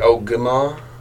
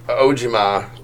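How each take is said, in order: First: The middle consonant is a hard G. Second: The middle consonant is a J sound. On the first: This is how the speaker says it. "I say Ogima" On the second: This is how one particular person says it. "Or if you're Peter Joe, it's Ojima"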